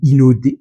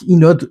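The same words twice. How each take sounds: First: The name is said with Japanese pronunciation. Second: The name is said with French pronunciation.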